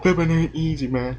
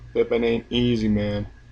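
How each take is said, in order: First: It is said with lively enthusiasm. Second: It is said flatly, without emotion.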